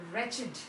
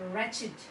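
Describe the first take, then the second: No difference in how they are said.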